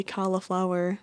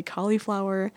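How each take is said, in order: First: "cauliflower" said CALL-uh-flower; allowed pronunciation. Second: "cauliflower" said COLL-ee-flower; own pronunciation. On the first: Vlogger allowing others' version, cauliflower with middle uh. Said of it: "allow people to say cauliflower". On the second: Vlogger keeping her own version, cauliflower with middle ee. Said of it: "continue to say cauliflower". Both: Shown as a demonstration.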